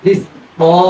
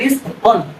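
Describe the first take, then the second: First: The word ends in a long a vowel. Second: The word ends in an n sound. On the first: The reciter stops on the word. The speaker calls it right. "ওয়াকফ আছে" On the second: The reciter does not apply the stopping rule. The speaker calls it wrong. "যদি আমরা না জানি তখন উচ্চারণ হবে"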